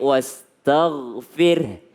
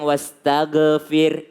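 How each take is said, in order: First: The gh sound is smooth, with no echo. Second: The gh sound is bounced with a short echo. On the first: The speaker calls it right. "Gha itu adalah bukan huruf qalqa" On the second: The speaker calls it wrong. "jangan bilang"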